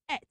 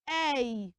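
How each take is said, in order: First: The ending sounds like 'et' with a t. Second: The ending sounds like 'ay' with no t. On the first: The speaker calls it wrong. "not usually pronounced as et" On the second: The speaker calls it right. "you pronounce them as a"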